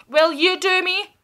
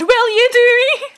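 First: Said in the usual way. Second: High and loud, cracking up; higher, louder, giggling re-ask; laughing repeat. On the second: Real, not acted. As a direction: repeat it laughing at the double meaning. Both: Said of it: "that sounded so bad".

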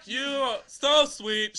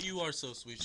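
First: Loud, high, slow mock gushing; hammed-up sing-song love letter; funny letter reading. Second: Said in the usual way. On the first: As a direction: belt it out, dragging every word. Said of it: "I read them a funny way". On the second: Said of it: "She didn't even put".

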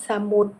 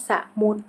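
First: Said in the usual way. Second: สะมุด split as สะ-มุด; syllable-by-syllable reading. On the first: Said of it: "คำว่าสมุด". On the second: Shown as a demonstration. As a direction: sound out สะมุด in two separate syllables. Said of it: "อ่านว่าสะมุด".

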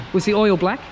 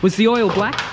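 No difference in how they are said.

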